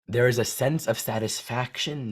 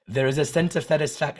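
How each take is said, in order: First: It is spoken in the speaker's usual accent. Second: It is spoken with a put-on French accent. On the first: "No, I'm not going to do it well" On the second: "I'll speak it with a French accent"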